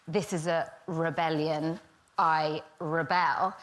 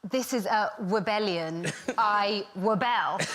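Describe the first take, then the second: First: The R sounds are pronounced as full R's. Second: The R sounds are pronounced like W sounds. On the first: The speaker calls it right. "I'm supposed to say" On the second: The speaker calls it wrong. "Which was an absolute disaster"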